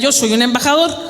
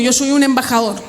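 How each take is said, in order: First: It is said with eager, high energy. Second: It is said with ordinary, low energy.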